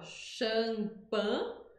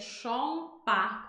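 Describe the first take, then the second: First: It is said with a Portuguese first vowel. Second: It is said with a French first vowel. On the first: "Em português a gente fala champagne" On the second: "em francês é champagne, com som de A"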